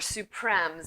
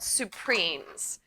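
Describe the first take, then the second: First: The word has a French pronunciation. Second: The word has an English pronunciation. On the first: "or supremes if you're French" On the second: "chefs call it supremes"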